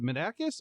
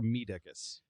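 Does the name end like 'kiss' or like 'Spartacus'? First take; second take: kiss; Spartacus. First: The name ends with a 'kiss' sound. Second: The name ends rhyming with Spartacus. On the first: "is it Medakis" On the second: "I'm thinking it's like Spartacus, like Medicus"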